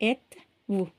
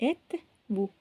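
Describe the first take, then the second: The two takes are said the same way.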